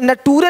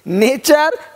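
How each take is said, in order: First: The middle consonant is a plain t sound. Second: The middle consonant is a ch sound. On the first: The speaker calls it wrong. "यहाँ पे नटूरे नहीं बोलते" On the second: The speaker calls it right. "टी का उच्चारण चा होता है"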